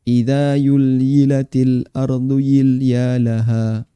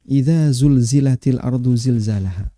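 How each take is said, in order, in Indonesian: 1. Bunyi z diganti dengan bunyi y. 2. Kata-katanya diucapkan dengan bunyi z yang jelas. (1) "Tidak ada di Quran idza yulyilatil" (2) "Adanya idza zulzilatil ardu zilzalaha"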